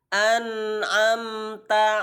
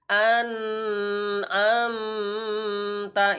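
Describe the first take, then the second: First: The word flows at a moderate length. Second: The word is stretched out too long. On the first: The speaker calls it right. "Yang sempurna" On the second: The speaker calls it wrong.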